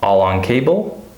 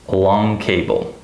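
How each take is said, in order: First: "All on cable" with ALL stressed; first-word stress. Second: "long cable" with slow, stressed LONG; second-syllable stress. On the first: Teacher asking learners to hear the difference, "All on cable" stressed on "All". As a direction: punch "All", rise on "cable". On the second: Teacher asking learners to hear the difference, stressed "long" in "long cable". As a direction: lean heavily on "long". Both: Shown as a demonstration. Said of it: "So listen to the difference".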